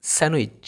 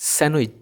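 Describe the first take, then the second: No difference in how they are said.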